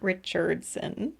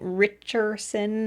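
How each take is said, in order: First: The name is said with a d sound. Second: The name is said without a d sound. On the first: The speaker calls it wrong. "not Richardson" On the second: The speaker calls it right. "I am saying Richardson ... No D"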